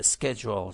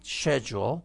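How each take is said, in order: First: First schedule begins with SK; American pronunciation. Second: Schedule begins with SH instead of SK; British pronunciation. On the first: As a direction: say schedule as SKED-jool, the expected form. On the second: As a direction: say schedule as SHED-jool, the alternative form. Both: Shown as a demonstration. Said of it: "اگر به جای schedule شنیدید schedule".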